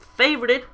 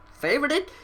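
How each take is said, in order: First: Said in the usual way. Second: 1 questioning rise. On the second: Shown as a demonstration. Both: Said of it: "'cause I said favoured as in past".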